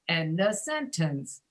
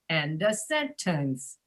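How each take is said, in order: The two takes are said the same way.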